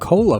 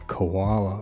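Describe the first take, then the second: First: It is said with two syllables, like cola. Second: It is said like the animal, koala. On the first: The speaker calls it right. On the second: The speaker calls it wrong.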